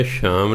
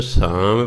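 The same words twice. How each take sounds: First: ਸ਼ਾਮ with a sh sound; wrong pronunciation. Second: ਸਾਮ with a plain s sound; correct pronunciation. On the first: Teacher warning against a misreading, ਸ਼ਾਮ with sh. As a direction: start ਸ਼ਾਮ on sh instead of s. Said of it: "ਸ਼ਾਮ ਨਹੀਂ ਪੜ੍ਹ ਦੇਣਾ". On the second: Teacher showing learners the right reading, ਸਾਮ with plain s. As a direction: say ਸਾਮ with s, never sh. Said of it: "ਇਹਨੂੰ ਸਾਮ ਪੜ੍ਹਨਾ". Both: Shown as a demonstration.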